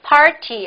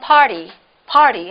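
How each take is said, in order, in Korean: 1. t는 분명한 t 소리로 발음합니다. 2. t가 부드러운 탄설음(flap) 소리로 약해집니다.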